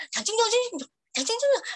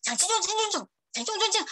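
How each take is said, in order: First: Mock Mandarin babble, higher. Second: Mock Mandarin babble. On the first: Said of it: "Terus makin didengar". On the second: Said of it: "Waktu denger listening nih".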